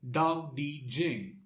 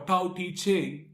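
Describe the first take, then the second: First: The title is said in a Chinese pronunciation. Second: The title is said in an anglicized pronunciation.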